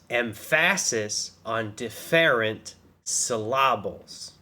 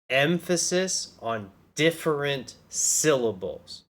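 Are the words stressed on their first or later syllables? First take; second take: later; first. First: Each word is stressed on a later syllable. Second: Each word is stressed on its first syllable. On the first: The speaker calls it wrong. "only stress the capitalized syllables" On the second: The speaker calls it right. "I'm going to read this out normally"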